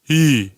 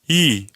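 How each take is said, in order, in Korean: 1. 모음은 뒤쪽에서 울립니다. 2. 모음은 가운데에서 울립니다. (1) "뒤로 갈 때" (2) "중간에 갈 때"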